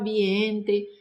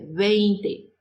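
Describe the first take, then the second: First: The first vowels sound like 'ie'. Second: The first vowels sound like 'ei'. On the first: The speaker calls it wrong. "não falar viente" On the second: The speaker calls it right. "É vinte"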